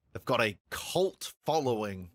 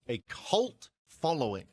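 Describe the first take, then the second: First: Said in the usual way. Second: Cult leaned on, slow and pointed; stress on cult. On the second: Shown as a demonstration. Critic hinting the films are divisive, stressing cult. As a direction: linger on cult with a knowing weight. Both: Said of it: "you put a lot of emphasis on the word cult there".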